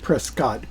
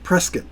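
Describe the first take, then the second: First: The second syllable sounds like scot. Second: The second syllable sounds like kit. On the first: It is read the way it is spelled. "It does look like Prescott" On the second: It is said the way local people say it. "the locals call it Prescott, like a press kit"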